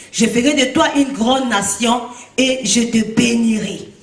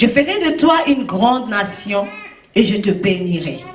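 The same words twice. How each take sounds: No difference in how they are said.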